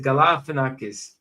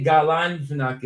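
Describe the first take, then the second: First: Galifianakis said ga-li-fi-a-na-kis, no n after Gala; the intended Galifianakis, with no n; right version. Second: Galanfianakis said with an extra n, ga-lan-fi-a-na-kis; the rejected Galanfianakis, with an n after Gala; wrong version. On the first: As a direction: clean Galifianakis, with li where the wrong one has lan. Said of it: "I said Galifianakis". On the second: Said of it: "I didn't say Galanfianakis". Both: Shown as a demonstration.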